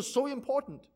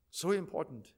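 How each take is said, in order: First: Said in the usual way. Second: Quiet echo. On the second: Acted. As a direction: lower and softer, letting it sink in. Preacher repeats phrase, dropping voice.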